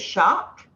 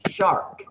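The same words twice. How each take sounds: First: It is said Australian-style with no R sound. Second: It is said with an R sound after the vowel.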